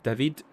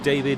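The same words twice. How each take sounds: First: The name is pronounced the Dutch way. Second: The name is pronounced the English way.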